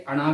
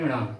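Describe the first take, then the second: First: "अणा" ending in an open oral vowel; wrong letter sound. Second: "अणाम" with a nasalised ending, ṇã; correct letter sound. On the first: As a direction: say "अणा" without final nasalisation. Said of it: "अणा भी नहीं होता है". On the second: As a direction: let "अणाम" end through the nose. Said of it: "इसे बोलते हैं अणाम". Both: Shown as a demonstration.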